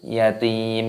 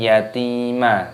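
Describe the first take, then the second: First: The word ends on a bare m sound. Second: The word ends with an added a vowel. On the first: The speaker calls it right. "Mimnya dibaca mati" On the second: The speaker calls it wrong. "bukan yatima, salah"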